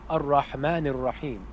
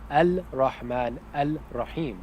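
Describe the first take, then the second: First: The article blends into the r sound. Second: The article keeps a distinct l sound. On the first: The speaker calls it right. "we say" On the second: The speaker calls it wrong. "We don't say"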